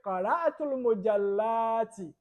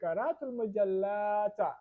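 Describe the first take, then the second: First: The last word ends with an 'i' vowel. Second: The last word ends with an 'a' vowel. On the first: The speaker calls it right. "we should say ti" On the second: The speaker calls it wrong. "we wouldn't say ... It is wrong to say ta"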